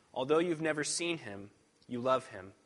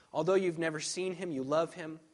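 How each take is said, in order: Both takes have the same delivery.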